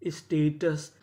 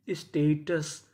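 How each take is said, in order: Both takes have the same delivery.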